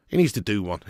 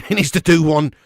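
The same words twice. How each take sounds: First: Said in the usual way. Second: Louder, with a laugh; louder laughing repeat of the verdict; emphatic repeat. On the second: Shown as a demonstration. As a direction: hammer the verdict home with a laugh.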